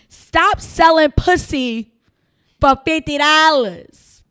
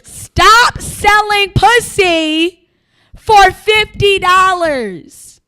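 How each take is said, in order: First: It is said at a normal volume. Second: It is said noticeably louder.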